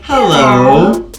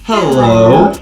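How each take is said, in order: Both takes have the same delivery.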